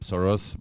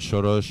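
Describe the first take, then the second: First: The name is pronounced the English way. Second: The name is pronounced the Hungarian way.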